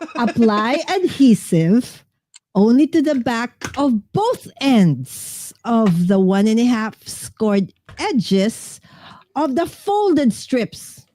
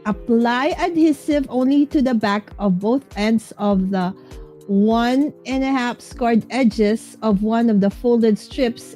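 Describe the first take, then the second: First: It is read with expressive feeling. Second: It is read flatly, without expression.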